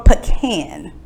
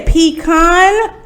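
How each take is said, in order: First: "pecan" as puh-KAN; short first syllable, flat A in "pecan"; pronunciation contrast. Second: "pecan" as PEE-kahn; long EE and open AH in "pecan"; pronunciation contrast. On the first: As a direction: say "pecan" to rhyme with "can". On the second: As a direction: say "pecan" to rhyme with "con". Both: Shown as a demonstration. Asks which pronunciation is used.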